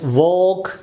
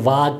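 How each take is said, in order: First: The vowel is a slightly rounded 'aw'. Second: The vowel is a wide-open unrounded 'ah'. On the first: The speaker calls it right. "It's वॉक" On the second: The speaker calls it wrong. "बिल्कुल मुंह open भी नहीं है, वाक भी नहीं है"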